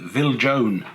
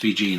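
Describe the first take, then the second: First: The name is pronounced the way it is spelled. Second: The name is pronounced differently from its spelling. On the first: The speaker calls it wrong. "as you read it in the description of the catalogue, you could easily mistakenly call it" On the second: The speaker calls it right. "that's the correct pronunciation"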